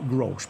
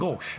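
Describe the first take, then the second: First: An r sound follows the first consonant. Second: No r sound follows the first consonant. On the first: The speaker calls it wrong. "not grosh" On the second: The speaker calls it right. "but gosh. I think that's the way you pronounce it"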